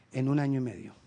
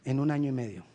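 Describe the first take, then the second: No difference in how they are said.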